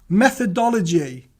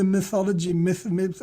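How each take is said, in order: First: Landing "Methodology" right at last; careful correct try. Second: "mythology" said with a "my" sound and no "e", then cut short at "myth, myth"; stumbling into "mythology" instead of the right word; fumbled word. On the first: Shown as a demonstration. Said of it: "It's the last time I'm gonna say it". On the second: Real, not acted. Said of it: "I can't even say it now".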